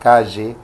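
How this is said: It is said with an Ecuadorian highland accent. "un serrano ecuatoriano podría decir"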